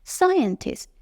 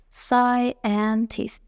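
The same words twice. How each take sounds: First: Said in the usual way. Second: ساینتیست slowly as sci, en, tist; three slow separate beats in ساینتیست; split into syllables. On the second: Shown as a demonstration. Teacher counting three parts, split into syllables. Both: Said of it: "سه بخشه".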